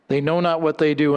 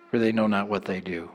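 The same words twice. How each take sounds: First: Said in the usual way. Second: Much lower, much softer and quick, a whispered plea; hushed prayer. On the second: Acted. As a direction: let "for they know not what they do" fall low and soft. Quoting Jesus' prayer, hushed.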